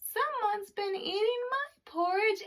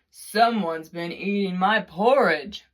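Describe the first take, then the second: First: It is said in a tiny, small voice. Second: It is said in a big, deep voice. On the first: "in his wee small voice he said" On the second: "in his great huge voice said"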